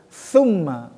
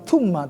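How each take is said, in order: First: The word begins with a th sound. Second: The word begins with a plain t sound. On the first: The speaker calls it right. "Lidah harus tetap dikeluarkan" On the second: The speaker calls it wrong. "Bukan tumma"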